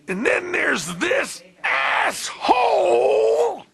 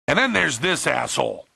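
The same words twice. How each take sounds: First: It is said loudly, with strong force. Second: It is said softly, with little force.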